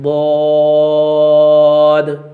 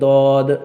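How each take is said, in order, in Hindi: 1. यह अक्षर भारी और भरा हुआ बोला जाता है। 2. यह अक्षर पतला और हल्का बोला जाता है। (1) "इसको जो है पुर करके पढ़ा जाएगा" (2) "इसको भी जो है बारीक नहीं पढ़ा जाएगा, दौद ऐसे नहीं"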